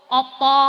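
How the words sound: The word ends with a rounded 'o' vowel. This is the Surabaya dialect form. "Nek Surabaya kula diakhiri o"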